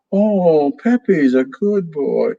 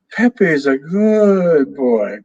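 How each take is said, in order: First: A touch higher, sing-song parrot talk; lightly voiced parrot. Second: Higher, slow, drawn-out parrot phrase; slow parrot repeat. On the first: Parrot Pepe praises himself to the family, light parrot voice. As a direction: chirp it like a pleased parrot. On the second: Acted. Parrot Pepe repeats himself slowly, smug drawn-out parrot voice.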